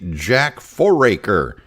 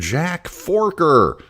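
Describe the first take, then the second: First: The surname is said with three syllables. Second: The surname is said with two syllables. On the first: The speaker calls it right. "His name is actually" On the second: The speaker calls it wrong. "mispronounced uh, the person's name and pronounced it"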